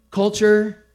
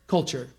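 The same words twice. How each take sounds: First: Culture said louder and higher; emphatic Culture. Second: Said in the usual way. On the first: Shown as a demonstration. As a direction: hit the word Culture hard as a headline. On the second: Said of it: "Culture dictates everything".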